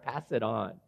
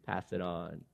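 First: Said in the usual way. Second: A softer, quieter repeat, fading away; softer echo. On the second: Shown as a demonstration. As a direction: let the words fade as an echo. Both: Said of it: "Yes, Lord".

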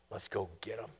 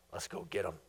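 First: Much lower, rising at the end on go; low voice lifting into eager command; Pharaoh's order. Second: Much lower, different voice, flat command; Pharaoh's order. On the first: Preacher voicing Pharaoh urging pursuit, low rising call. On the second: Preacher voicing Pharaoh rallying his army, low menacing order. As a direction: growl it as the scheming king. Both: Acted.

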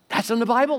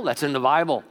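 First: Bible raised high with a rise; emphatic rising. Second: Said in the usual way. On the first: Shown as a demonstration. Preacher insisting to the church that it's scripture, high and rising. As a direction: stress "Bible" high, rising, to drive it home.

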